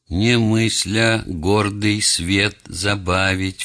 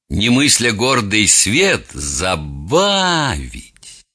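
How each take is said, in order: First: The last word is said at normal speed. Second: The last word is slowed, with exaggerated stress.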